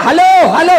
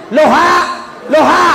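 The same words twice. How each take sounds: First: Higher, louder hammed-up halo halo; mock yelling. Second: Loha loha, halo said backwards, high and loud; backwards hello. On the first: Haji shouting into a reversed receiver, mock yell. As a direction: shout halo halo as if nobody hears. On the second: Retold or imitated. Haji told the phone is reversed, says loha loha loudly. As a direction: shout loha loha like a confused old man. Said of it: "Langsung dia bilang ni".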